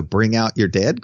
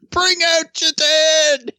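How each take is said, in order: First: Said in the usual way. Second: High, slow drawn-out town crier call; plague cart crier. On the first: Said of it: "doing the "Bring out your dead" cries". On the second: Pretend. Joking about calling out like the plague cart crier. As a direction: bellow it like a medieval corpse collector. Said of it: "Bring out your dead" cries".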